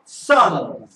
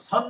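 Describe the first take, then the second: First: It starts with a tense, hard s sound. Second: It starts with a soft, plain s sound. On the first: The speaker calls it right. "S 다음에 모음이었죠. 그러니까 쌍시옷 발음하는 겁니다" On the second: The speaker calls it wrong. "선 하지 않고"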